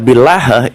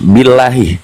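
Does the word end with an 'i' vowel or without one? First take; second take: without; with 'i'. First: The word ends on 'h' without a vowel. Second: The word ends with a final 'i' vowel. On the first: It does not form an oath. The speaker calls it wrong. "kalau dibaca billah itu tidak jadi sumpah" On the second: It forms an oath. The speaker calls it right. "harus bacaannya harus billahi"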